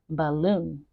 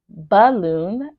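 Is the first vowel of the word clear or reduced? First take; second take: reduced; clear. First: The first vowel is a weak, reduced schwa. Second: The first vowel is emphasized and clearly heard. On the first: "but we would normally say balloon" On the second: "I'm just emphasizing it right now so you can hear the schwa sound"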